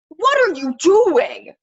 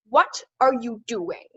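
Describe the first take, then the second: First: It is shouted loudly. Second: It is said less loudly, carefully enunciated. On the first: "Actual like shouting sort of" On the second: "Enunciated, not as shouty"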